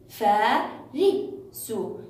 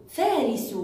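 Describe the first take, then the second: First: "فارس" as three separate beats, فا، ري، سُ; split into syllables. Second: Said in the usual way. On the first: Shown as a demonstration. Teacher sounding out a word for pupils, split into syllables. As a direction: slowly chop "فارس" into فا، ري، سُ with pauses. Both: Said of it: "هل جهزتم الكلمات للتقطيع".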